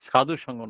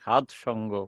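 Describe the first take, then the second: First: The first word ends with an 'u' vowel. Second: The first word ends without any final vowel. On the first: The speaker calls it wrong. "অনেকে উচ্চারণ করে থাকে... সাধু সঙ্গ নয়" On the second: The speaker calls it right.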